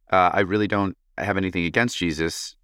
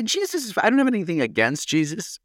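First: Said in the usual way. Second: Squeaky high mocking repeat. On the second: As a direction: parrot it back in a high teasing voice. Repeating listener's odd sentence mockingly.

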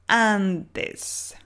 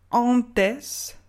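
First: Antes with an open a and a clear n; clear Spanish a. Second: Antes with a nasal French ɑ̃ vowel; wrong nasal. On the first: Teacher showing the correct Spanish antes with open a. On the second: Teacher imitating the French learner's nasal antes. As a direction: say antes through the nose. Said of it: "On ne dit pas". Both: Shown as a demonstration.

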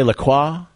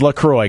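First: "LaCroix" as luh-KWAH, rising; alternate French-style LaCroix. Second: "LaCroix" as luh-CROY; correct LaCroix pronunciation. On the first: Host reporting how some people say it, French-style pronunciation. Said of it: "Some people say LaCroix". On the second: Host confirming the sparkling water name, correct pronunciation. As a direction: say "LaCroix" to rhyme with boy. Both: Shown as a demonstration.

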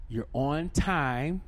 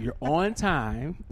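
First: Slow, rising push on "time"; "You're on time" with the weight on "time"; stress on time. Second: Slow, rising push on "on"; "You're on time" with the weight on "on"; stress on on. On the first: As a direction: lean on "time" slowly. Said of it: "You're on time, okay?". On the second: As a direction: lean on "on" slowly. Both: Shown as a demonstration.

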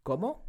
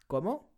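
First: "¿Cómo?" stress on the first syllable CÓ, rising question tune. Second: "¿Cómo?" repeated slowly, accent on CÓ, rising at the end; stressed Cómo again. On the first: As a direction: say "¿Cómo?" clearly with the accent on CÓ, as a question. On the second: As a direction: model "¿Cómo?" for the learner, CÓ-mo with a rise. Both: Shown as a demonstration. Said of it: "Please pay close attention to the accent on".

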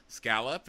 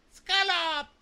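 First: Said in the usual way. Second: Very high, loud squeaky echo; clueless parroting. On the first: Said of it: "she's just repeating words. He's like". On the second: Retold or imitated. Yuki repeats a word she doesn't understand, squealed parroting. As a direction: parrot the word back in a piercing cartoon voice. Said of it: "she's just repeating words".

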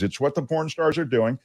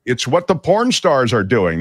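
First: Softer, toned-down repeat; said quietly, pitch still lifted; lowered voice. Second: Energetic, projected read; near-yelling delivery; raised voice. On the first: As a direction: bring the volume right down. Repeats it lowered after yelling remark. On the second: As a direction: announce it to the whole room. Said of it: "Why are you yelling?". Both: Real, not acted.

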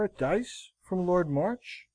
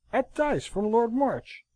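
First: "at dice from Lord March" higher, rising at the end; "March" lifted into a rising question; questioning tune. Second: "At dice from Lord March" slow, high, then falling; "dice" drawn out high, "March" falling; emphatic repetition. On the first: Accusation first put as question. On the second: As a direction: repeat "At dice from Lord March" slowly and firmly. Repeated in answer to At what. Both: A narrator's reading.

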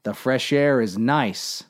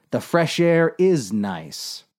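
First: Said in the usual way. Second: "is" lifted in agreement; stress on IS. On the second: Acted. Captain agreeing with Dave before a warning, stress on "is". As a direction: lean on "is" to concede the point.

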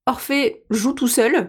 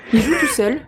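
First: Each syllable of "Orphée joue tout seul" spelt out slowly; overly careful diction; over-articulated. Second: Said in the usual way. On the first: Shown as a demonstration. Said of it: "Articule trop". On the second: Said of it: "Articule beaucoup trop".

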